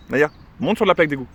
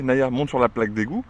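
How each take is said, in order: First: Dog command. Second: Said in the usual way. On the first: Real, not acted. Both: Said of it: "quand je lui dis".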